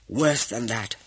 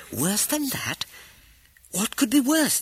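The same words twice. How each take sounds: First: Said in the usual way. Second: High, incredulous echo of "Worse than that?"; alarmed disbelief. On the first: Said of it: "answered Saeed". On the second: A narrator's reading. Wife echoes husband's grim news, high incredulous alarm. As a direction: throw it back up high, shocked.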